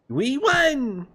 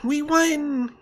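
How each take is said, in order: First: A put-on character voice, strongly exaggerated. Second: A put-on character voice, toned down. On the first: The speaker calls it wrong. "No, I can do better" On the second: The speaker calls it right. "I'll do my Paimon voice, but like less cringy"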